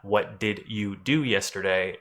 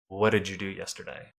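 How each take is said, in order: First: The D and Y sounds are pronounced separately. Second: The D and Y merge into a J sound. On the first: The speaker calls it wrong. "It's not" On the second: The speaker calls it right. "they are smushed together to make a J sound"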